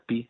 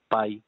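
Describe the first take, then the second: First: The vowel is a plain ee sound. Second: The vowel is an eye sound. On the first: This is how Greek speakers name the letter. "לא מבטאים את זה בדרך כלל פי" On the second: This is how English speakers name the letter. "אלא מבטאים את זה פאי"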